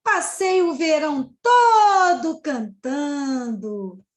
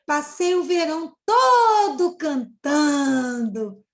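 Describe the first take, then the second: First: Slow, loud exclamation with a lamenting tune; exclamatory intonation. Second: Slow, loud, tearful-sounding lament; lamenting exclamation. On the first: Shown as a demonstration. Teacher repeating the cicada's line to show intonation, slow and loud. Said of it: "Olha a entonação". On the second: Acted. Teacher voicing the cicada's regretful exclamation, slow and loud. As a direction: wail it as a regretful confession. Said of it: "Olha a exclamação".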